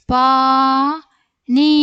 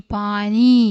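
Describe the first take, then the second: First: Very slow, loud, stretched vowels; syllable by syllable. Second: Said in the usual way. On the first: Shown as a demonstration. Teacher sounding out a word for young readers, syllable by syllable. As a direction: hold each syllable long and firm.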